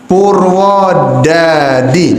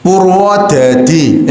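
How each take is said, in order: First: Slow light Purwodadi without Javanese accent; plain non-medok. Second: Slow heavy Javanese medok Purwodadi; Javanese medok accent. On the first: Teacher shows students a Purwodadi with no Javanese accent. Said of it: "nah, biasa". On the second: Teacher shows students a Javanese medok Purwodadi. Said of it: "itu Jawa". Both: Shown as a demonstration.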